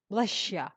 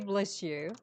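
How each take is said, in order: First: The s and y merge into sh, 'you' reduced. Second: The s and y stay separate, with full 'you'. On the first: "the short form, when they pronounce it, they say bless ya" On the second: "they usually say bless you"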